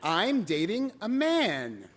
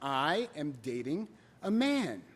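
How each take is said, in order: First: It is said at normal speed. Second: It is said slowly and deliberately.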